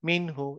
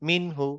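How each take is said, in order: The two takes are said the same way.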